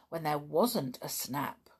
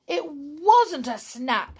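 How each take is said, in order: First: Said in the usual way. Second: "It wasn't a snap" said higher and louder, slowed, on the verge of tears; almost crying. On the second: Acted. Donald losing his cards, near tears, says "It wasn't a snap". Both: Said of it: "he said, almost crying".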